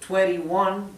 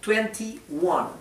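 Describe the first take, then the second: First: The middle T is soft, almost like D. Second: The middle T is pronounced clearly. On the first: "si no les sale" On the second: "pronunciando bien claramente la T"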